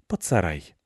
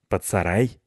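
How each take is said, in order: First: Falling answer, под stressed; "под" ditekan, nada turun, setuju; agreeing. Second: Rising question on сарай; сарай lifted up as a suggestion. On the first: Other agrees firmly. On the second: Cat proposes hiding place. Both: Acted.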